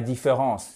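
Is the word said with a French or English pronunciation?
French. It is said with French pronunciation. The speaker calls it wrong. "c'est pas différence"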